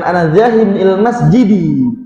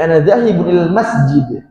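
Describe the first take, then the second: First: The last word ends with a short vowel. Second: The last word ends on a bare consonant. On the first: The speaker calls it wrong. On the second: The speaker calls it right. "Dia sukun belakangnya"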